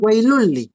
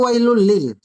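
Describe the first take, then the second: First: The phrase runs together and ends in a vowel. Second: The phrase ends with a separate l sound. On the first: The speaker calls it right. "Ito ay wailulli" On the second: The speaker calls it wrong. "Hindi ito wailul lil"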